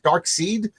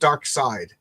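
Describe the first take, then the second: First: The second part rhymes with 'seed'. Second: The second part rhymes with 'side'. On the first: "Is it Dark Seed" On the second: "or is it Dark Side"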